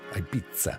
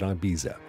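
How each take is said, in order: First: The z is said as a ts sound. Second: It is said with an American pronunciation. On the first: "they pronounce the Z like a tz" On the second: "a lot of Americans pronounce it Ibiza"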